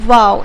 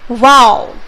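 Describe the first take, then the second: First: It is said plainly, without extra force. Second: It is said with strong, forceful excitement. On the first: "simply बोलते हैं" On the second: "exclamation mark लगा देते हो"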